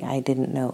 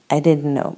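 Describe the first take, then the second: First: Said in the usual way. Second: Blurting it out loudly; loud, falling, stress on didnt; loud flustered apology. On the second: Acted.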